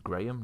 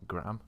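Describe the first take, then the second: First: The name is pronounced the way England says it. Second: The name is pronounced a way England does not. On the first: The speaker calls it right. "in England, like that that name is Graham" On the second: The speaker calls it wrong. "not Graham"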